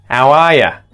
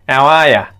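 First: 'You' becomes 'ya' and the h is dropped. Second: 'You' becomes 'ya' and the h is dropped.

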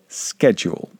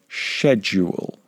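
First: The word is said with an American pronunciation. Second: The word is said with a British pronunciation. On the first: "The Americans, people from the United States, would pronounce this word schedule" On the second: "The British, people from the United Kingdom, would pronounce this word schedule"

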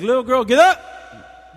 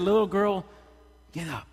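First: It is said loudly and harshly. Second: It is said softly and gently.

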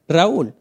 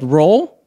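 First: The name has two syllables, said the Spanish way. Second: The name is one syllable, sounding like roll. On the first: The speaker calls it right. "right now I'm saying it with the correct pronunciation in my culture. It's Spanish" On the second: The speaker calls it wrong. "I've been called Roll"

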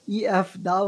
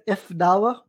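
First: The first word is said as the letters E-F. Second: The first word sounds like "if". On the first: The speaker calls it right. "It's EF dawah" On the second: The speaker calls it wrong. "I swear you said if dawah"

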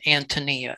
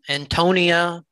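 First: The name is said the Czech way. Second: The name is said the common English way. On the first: The speaker calls it right. "the Bohemians... would pronounce it as Antonia" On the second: The speaker calls it wrong. "You will hear people say My Antonia, but that's not correct"

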